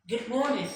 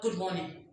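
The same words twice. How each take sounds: First: "Good morning" in a raised, swinging greeting tune; rising greeting tone. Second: Said in the usual way. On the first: Shown as a demonstration. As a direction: lift your voice on MORNING in "Good morning". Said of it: "Rather say".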